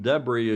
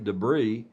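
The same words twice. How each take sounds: First: It is said with a British pronunciation. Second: It is said with an American pronunciation. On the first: "as you Brits would say" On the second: "as we Americans would say"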